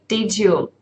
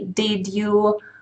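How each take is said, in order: First: The d and y merge into a j sound. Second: The d and y are said as separate sounds. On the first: The speaker calls it right. "No, you would say" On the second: The speaker calls it wrong. "You don't say"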